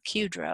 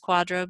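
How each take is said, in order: First: The word begins with a 'kyoo' sound. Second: The word begins with a 'kwah' sound. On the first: The speaker calls it wrong. "it's kind of more like Qdro, I guess, but for whatever reason we don't pronounce it that way" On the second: The speaker calls it right. "It's pronounced Quadro"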